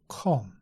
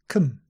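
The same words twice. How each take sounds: First: The vowel is a rounded o sound. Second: The vowel is a relaxed uh sound. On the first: The speaker calls it wrong. "Not with a round mouth" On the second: The speaker calls it right. "relax the lips, relax the mouth"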